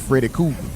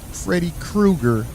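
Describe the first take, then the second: First: The surname is said like cougar, without an r. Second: The surname is said as Krueger, with an r. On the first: The speaker is from the neighborhood. The speaker calls it wrong. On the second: The speaker is trying to sound proper. The speaker calls it right. "try to say it right. It's Fred Freddy Krueger"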